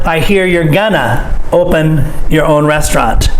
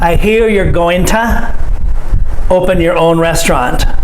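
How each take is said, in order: First: The reduced form 'gonna' is said. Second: The full form 'going to' is said. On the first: "We say gonna" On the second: "we could say, I'm here you're going to"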